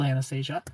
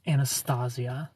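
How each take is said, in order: First: Anastasia said "an-uh-STAY-zhuh"; name pronunciation. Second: Anastasia said slowly "ann-uh-STAH-zee-uh"; low, slow Anastasia with open "ah"; contrasting pronunciation. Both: Shown as a demonstration. Sets two pronunciations apart.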